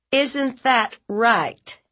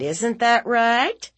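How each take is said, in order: First: High, slow, falling demand; insistent aunt. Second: High, slow rising question; accusing aunt. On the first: Aunt repeating her demand to silent nephew, insistent. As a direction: hammer each word, dropping the end. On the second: Aunt demanding nephew confess, high and questioning. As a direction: press for an admission, lifting the end. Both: Acted.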